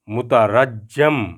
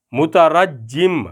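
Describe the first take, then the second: First: مترجم said very slowly as mutarajam; مترجم, slow, the form for the one who is stoned; slow pronunciation demo. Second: مترجم said very slowly as mutarajim; مترجم carefully spelled out in speech; slow pronunciation demo. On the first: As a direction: stretch مترجم out as mutarajam, ending in a. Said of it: "جس کو پتھر مارے جائیں". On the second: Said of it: "پتھر مارنے والا اسم فاعل". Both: Shown as a demonstration.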